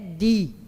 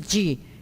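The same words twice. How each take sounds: First: The d is kept at the tongue tip. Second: The d is said the Portuguese way. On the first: "em Esperanto é di" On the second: "no português a gente diz di"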